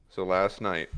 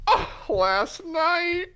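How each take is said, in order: First: Said in the usual way. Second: High, slow laughing repeat; gleeful echo. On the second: Acted. Puss echoing Zenith gleefully. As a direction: echo it with delight.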